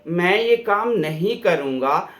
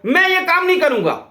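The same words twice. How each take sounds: First: The refusal sounds soft and polite. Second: The refusal sounds harsh and dismissive. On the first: The speaker refuses gently, saying they cannot manage it. The speaker calls it right. "मेरे से नहीं हो पाएगा। देखा tone." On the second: The speaker refuses bluntly and sends the person away. The speaker calls it wrong. "जाओ, ये भी tone है।"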